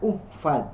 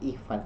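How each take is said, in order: First: The word begins with a 'u' vowel. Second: The word begins with an 'i' vowel. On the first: The speaker calls it wrong. "tidak uhfaz" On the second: The speaker calls it right. "tapi ihfaz"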